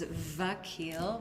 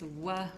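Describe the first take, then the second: First: The name begins with a V sound. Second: The name begins with a W sound. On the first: This is the Persian form. "in the Persian form is Vakil with a V sound" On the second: This is the Arabic form. "in the Arabic it's Wa with a W sound"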